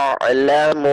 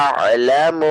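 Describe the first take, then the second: Both takes have the same delivery.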